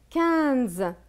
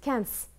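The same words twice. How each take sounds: First: The final consonant is a voiced z sound. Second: The final consonant is a voiceless s sound. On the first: The speaker calls it right. "c'est le Z" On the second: The speaker calls it wrong. "Si on met le S, on va dire"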